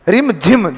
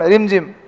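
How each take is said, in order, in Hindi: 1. शब्द ज़ोर और बल के साथ बोला गया है। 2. शब्द धीरे और सहजता से बोला गया है। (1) "जोर आता है" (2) "जितनी स्मूथ बारिश है उतना स्मूथ बोलते हैं अपन"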